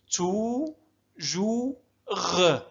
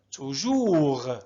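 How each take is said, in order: First: "تو، جو، غ" in slow separate beats; syllable by syllable. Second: Said in the usual way. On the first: Shown as a demonstration. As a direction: draw out "تو، جو، غ" one piece at a time. (نطق "تو، جو، غ" مقطعًا مقطعًا) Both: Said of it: "هكذا نقسم الكلمة حتى نسهل قراءتها".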